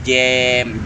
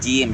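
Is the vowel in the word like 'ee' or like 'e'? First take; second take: e; ee. First: The vowel is a lax, open 'e' sound. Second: The vowel is a full, clear 'ee' sound. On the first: The speaker calls it wrong. "jangan jem" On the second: The speaker calls it right. "agak ditarik ke bawah supaya kasrohnya betul-betul tam sempurna"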